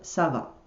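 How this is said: It is said with statement intonation. It says that one is fine. "the answer is I'm fine"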